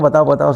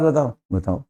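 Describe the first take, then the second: First: It is said eagerly with lively energy. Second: It is said flatly with no energy. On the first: The listener is keen to hear the news. The speaker calls it right. "ऐसे बोलो" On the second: The listener does not really care. The speaker calls it wrong. "Current ही नहीं है body के अंदर"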